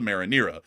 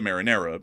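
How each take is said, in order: First: The name is said with English pronunciation. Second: The name is said with Italian pronunciation. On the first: "If you're in the rest of the world" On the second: "If you're Italian"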